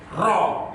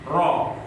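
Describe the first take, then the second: First: The r is trilled with a strong, harsh vibration. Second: The r is trilled with a light, gentle vibration. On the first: The speaker calls it wrong. "getaran yang keras atau kasar ... nah itu salah" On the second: The speaker calls it right. "dengan getaran yang lembut"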